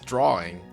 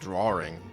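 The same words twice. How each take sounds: First: No R sound is added before -ing. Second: An extra R sound is added before -ing. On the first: The speaker calls it right. "there's only one R in that. It's drawing" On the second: The speaker calls it wrong. "some people sometimes pronounce it"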